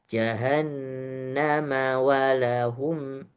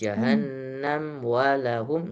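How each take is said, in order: First: Jahannam gets an added a vowel linking onward. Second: Jahannam ends on m, no added vowel. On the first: The speaker calls it right. "Kalau mau diwasal" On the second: The speaker calls it wrong. "Jangan ... enggak"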